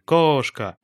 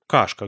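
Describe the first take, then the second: First: The stressed vowel is a steady, level 'o'. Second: The stressed vowel is very open, close to 'a'. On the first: "Она произносит монофтонг литературный, то есть ровный гласный" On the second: "Я даже использовал там более открытый, ... это «а-образный» звук"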